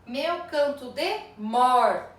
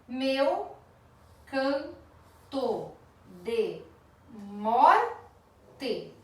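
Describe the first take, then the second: First: "meu canto de mor" said slowly and loud, cut off on a stressed "mor"; stop at the stress. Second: "Meu" "canto" "de" "morte" each said apart, with a pause between them, "morte" louder; syllable by syllable. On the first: Teacher showing the class where to stop counting, slow and stressed. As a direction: land hard on "mor" and stop there. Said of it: "A sílaba tônica da última palavra é mor". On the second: Teacher scanning a verse for the class, word by word. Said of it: "Na contagem da sílaba poética". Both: Shown as a demonstration.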